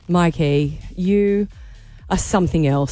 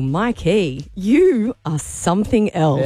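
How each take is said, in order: First: It is said in a disappointed tone. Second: It is said in a flirty tone.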